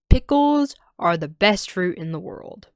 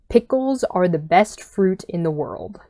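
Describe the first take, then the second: First: The voice sounds full, with much more detail. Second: The voice sounds thin, with little detail. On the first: "with so much more detail and stuff" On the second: "I'm going to say this phrase in with my headphone mic"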